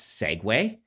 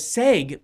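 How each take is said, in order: First: The word is said as two syllables. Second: The word is said as one syllable. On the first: The speaker calls it right. "when I found out that I'm like, that's segue" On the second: The speaker calls it wrong. "because I thought that was short for segue"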